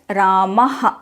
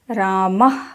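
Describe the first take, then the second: First: The final h is strong, with an echoing vowel. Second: The final h is very light and breathy. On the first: This is the southern traditional pronunciation. "The h sound is more strong in the south" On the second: This follows the classical phonetic treatise. "Paniniya Shiksha says it should be very light"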